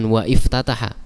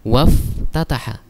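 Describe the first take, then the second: First: The 'i' sound after 'wa' is pronounced separately. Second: The words run together, dropping the 'i' sound. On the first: The speaker calls it wrong. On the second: The speaker calls it right. "Kalau kita baca langsung maka hilang hamzahnya"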